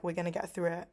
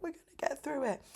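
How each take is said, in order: First: Said in the usual way. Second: High, quick comic imitation of a guy gassing up his friend; funny hype-up. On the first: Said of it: "he's, like, saying it in a really funny way". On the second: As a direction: imitate the funny pep talk, pitched high. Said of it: "saying it in a really funny way, like gassing".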